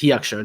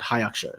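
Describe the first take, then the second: First: The first syllable sounds like 'hee'. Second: The first syllable sounds like 'high'. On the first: The speaker calls it right. "so it's pronounced He Aksho" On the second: The speaker calls it wrong. "not Hi Aksho"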